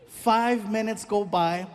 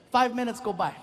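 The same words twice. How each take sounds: First: FIVE MINUTES GO BY, slowly drawn out; slow repeat. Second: Said in the usual way. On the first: Shown as a demonstration. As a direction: stretch "Five minutes go by" for suspense. Repeats the line for effect.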